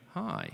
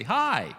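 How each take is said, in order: First: Flat hi. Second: Bright hi. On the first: Preacher contrasting two greetings, a flat falling hi. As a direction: say "Hi" flatly, the tone falling away. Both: Shown as a demonstration. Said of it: "that's different from me going".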